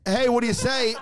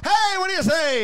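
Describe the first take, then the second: First: Mild mock yell, slightly high; toned-down imitation of a holler; retold scream. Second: High hollered greeting; re-enacted street shout; shouted back. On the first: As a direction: quote a shout without really shouting. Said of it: "The person that just screamed". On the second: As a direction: holler it high after a passing car. Shouts back at passing car.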